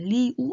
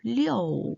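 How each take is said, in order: First: The syllable ends in a plain 'oo' sound. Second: The syllable ends in an 'oh' sound. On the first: The speaker calls it wrong. "리우 아니고" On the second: The speaker calls it right. "아니고 리오"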